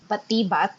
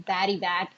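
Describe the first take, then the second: First: The name is said with Filipino vowels. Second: The name sounds like the English words batty bat. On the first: This is the proper pronunciation of the creature's name. "it is supposed to be pronounced as Batibat" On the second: The speakers knowingly use an anglicized version. "I'll just say Batty Bat"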